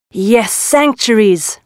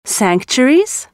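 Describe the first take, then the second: First: Slow, calm confirmation; calm reply. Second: Slow, wondering rise; puzzled question. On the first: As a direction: answer slowly and reassuringly. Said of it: "replied the tiger". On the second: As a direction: ask it slowly in disbelief. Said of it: "they asked". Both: Acted.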